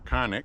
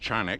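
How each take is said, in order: First: The name begins with a hard K sound. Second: The name begins with a CH sound. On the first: "the American pronunciation of Canik is acceptable" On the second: "It's supposed to be pronounced Chanik"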